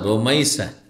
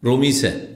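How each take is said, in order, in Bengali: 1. মাঝের স্বরধ্বনিটি একটি 'ai' যুগ্মস্বর। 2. মাঝের স্বরধ্বনিটি একটি সরল 'i'। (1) "রমিসা না, রোমাইসা" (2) "বিকৃত করে বলে"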